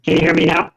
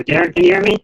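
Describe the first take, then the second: First: Distorted, breaking-up call audio; glitchy robotic call. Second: High, loud call into the mic. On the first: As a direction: sound like a glitching video call. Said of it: "it's like it's distorting". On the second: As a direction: call out to check he hears. Mic test calling out to Darren. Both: Real, not acted.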